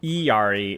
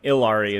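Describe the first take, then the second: First: The name is said the Spanish way. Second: The name is said the American way. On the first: "Iari is Spanish" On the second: "and Ilari is American"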